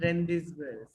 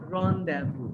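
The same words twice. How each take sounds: First: The z and s sounds are pronounced aloud. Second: The z and s sounds are left silent. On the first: The speaker calls it wrong. "not rendezvous" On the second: The speaker calls it right. "we have to pronounce it as rendezvous"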